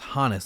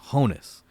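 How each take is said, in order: First: The first vowel sounds like 'ah'. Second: The first vowel sounds like 'oh'. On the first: The speaker calls it right. "I'm pronouncing that first name as Hannes" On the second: The speaker calls it wrong. "not Honus"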